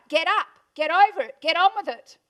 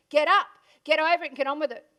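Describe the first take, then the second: First: Louder, forceful fatherly orders; father pushing his paralysed daughter, loud and firm; dad's loud command. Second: Said in the usual way. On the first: Retold or imitated. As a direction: bark the orders like a tough dad. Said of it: "it was my dad. He said". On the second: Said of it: "One of my favourite quotes".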